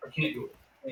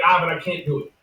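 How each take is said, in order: First: Whispered repeat, under her breath. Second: Said in the usual way. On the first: Retold or imitated. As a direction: drop to a whisper. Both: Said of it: "But then she was like".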